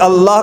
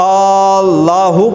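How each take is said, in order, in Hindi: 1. पहला स्वर छोटा है। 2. पहला स्वर लंबा खिंचता है।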